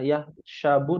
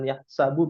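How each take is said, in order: First: The consonant is pronounced as a 'sh' sound. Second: The consonant is pronounced as an 's' sound. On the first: The speaker calls it wrong. "sinnya ya" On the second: The speaker calls it right. "Sin ya"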